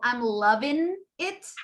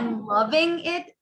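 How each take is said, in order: First: The ending of 'loving' is reduced. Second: The ending of 'loving' is said in full. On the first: "A reduction" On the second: "Instead of saying"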